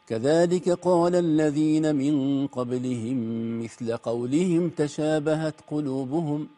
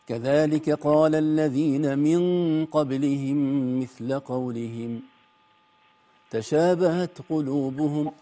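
First: Qawlihim runs straight into the next words. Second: There is a full stop after qawlihim. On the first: The earlier people are the ones who said their hearts are alike. The speaker calls it wrong. "لكن لا وصلنا" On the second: The earlier people said the same words as the first saying. The speaker calls it right. "هذا الوقف اللازم"

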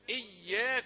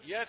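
First: The y sound is clearly doubled and held. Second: The y sound is short and light, not doubled. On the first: It is the intended word, 'you alone'. The speaker calls it right. "أقول إياك نعبد" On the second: It sounds like a word for the light around the sun. The speaker calls it wrong. "كثيرون مع السرعة يقول إياك نعبد"

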